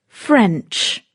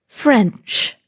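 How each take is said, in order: Both takes have the same delivery.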